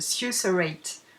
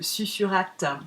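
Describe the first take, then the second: First: It is pronounced with English sounds. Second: It is pronounced with French sounds. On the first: "en anglais, ça se dit" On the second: "en français, si on le lit tel quel"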